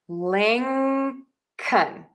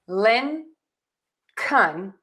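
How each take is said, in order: First: The first syllable ends in an ng sound. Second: The first syllable ends in a plain n. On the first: The speaker calls it right. "keep the tongue at the bottom of our mouth" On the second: The speaker calls it wrong. "instead of saying Lin, Kun"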